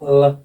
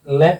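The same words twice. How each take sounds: First: The l is dark, tongue raised toward the back. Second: The l is clear, tongue tip only. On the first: "बड़ा ल" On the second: "छोटा ल"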